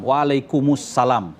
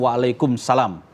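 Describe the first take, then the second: First: An extra 'u' links 'kum' to 'salam'. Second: 'Kum' runs straight into 'salam' with no vowel. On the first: The speaker calls it right. "Waalaikumussalam, waalaikumussalam, bukan waalaikumsalam" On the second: The speaker calls it wrong. "bukan waalaikumsalam"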